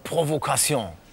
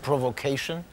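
First: The word is pronounced with French pronunciation. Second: The word is pronounced without French pronunciation. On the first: The speaker calls it right. "da spricht man es Französisch wahrscheinlich aus" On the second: The speaker calls it wrong. "Nicht Provocation"

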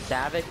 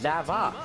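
First: The name is said to rhyme with havoc. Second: The name is said not rhyming with havoc. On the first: The speaker calls it wrong. "I always pronounce it as Zavok because, you know, Havoc and whatnot" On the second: The speaker calls it right. "but I guess it's pronounced Zavok"

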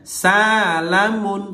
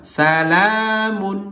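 First: The first syllable sa is held long. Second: The second syllable la is held long. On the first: "yang panjang sanya" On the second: "yang panjang lanya"

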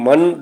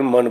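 First: The 'n' sound is pressed and held long. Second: The 'n' sound is plain and short. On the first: It means to accept or believe. "ਪਹਿਲੇ ਮਨ ਨੂੰ ਮਨ ਦਬਾ ਕੇ ਪੜ੍ਹਨਾ ਹੈ ਟਿੱਪੀ ਨੂੰ" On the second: It means the mind. "ਸਧਾਰਨ ਮਨ ਪੜ੍ਹਨਾ ਹੈ"

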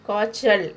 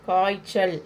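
The two takes are said the same way.

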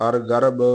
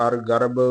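Both takes have the same delivery.

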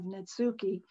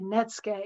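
First: Every letter is sounded out as spelled. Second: It sounds like Netscape without its last sound. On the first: The speaker calls it wrong. "instead of" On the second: The speaker calls it right. "I thought of Netscape, but just left off the last little syllable there"

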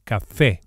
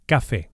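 First: The stress is on the last syllable. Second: The stress is on the first syllable. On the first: The speaker calls it right. "emphasize the e vowel on account of the accent, which indicates the stress" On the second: The speaker calls it wrong. "and not café"

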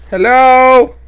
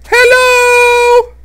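First: It is said in his normal voice. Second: It is said in a put-on disguised voice.

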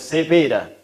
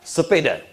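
First: It is said in a Medan accent. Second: It is said in a standard Indonesian accent.

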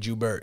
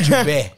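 First: The name is said with a plain English accent. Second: The name is said with a French accent. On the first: "Couldn't it just Jubert?" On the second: "Why are you saying it with an accent? Because it could be French"

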